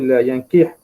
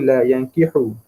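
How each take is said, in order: First: The last word ends on a consonant. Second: The last word ends with a u vowel. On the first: "dengan mensukunkan huruf tersebut" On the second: "Dibaca dengan menthamahkan huruf ha"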